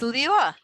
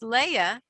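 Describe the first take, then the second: First: The name ends with a guttural, r-like sound. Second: The name ends on a plain open vowel.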